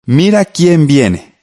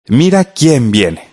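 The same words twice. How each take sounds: First: "Mira quién viene" read slowly, higher, stressing Mira; slow exclamation reading. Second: "Mira quién viene" read slowly with the weight on Mira; slow exclamation reading. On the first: Teacher reading the answer aloud to radio pupils, slow and exclamatory. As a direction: model the exclamation for the class, drawn out. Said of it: "Démonos cuenta que está entre signos de admiración".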